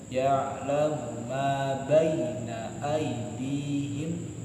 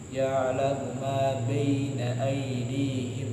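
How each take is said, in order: First: The phrase is articulated fully and distinctly. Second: The phrase is articulated weakly and indistinctly. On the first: The speaker calls it right. "Harus jelas seperti itu" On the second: The speaker calls it wrong. "nggak boleh nanggung, nggak boleh"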